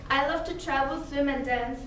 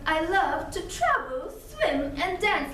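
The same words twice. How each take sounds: First: It is spoken in a relaxed, natural tone. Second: It is spoken in a forced, exaggerated tone. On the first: "if I have to say" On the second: "a certain forced tone"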